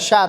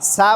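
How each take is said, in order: First: The syllable starts with a breathy sh sound. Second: The syllable starts with a plain s sound. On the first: The speaker calls it right. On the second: The speaker calls it wrong. "শিন জবর সা বলা যাবে না"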